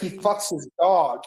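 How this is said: It is said in a shocked, horrified tone. The news is treated as appalling. The speaker calls it right. "it would be pretty shock and horror"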